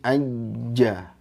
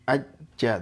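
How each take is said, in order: First: The doubled consonant is held and flows smoothly. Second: The doubled consonant is cut off abruptly. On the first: The speaker calls it right. "tapi aja" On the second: The speaker calls it wrong. "Jangan hanya terputus begitu saja"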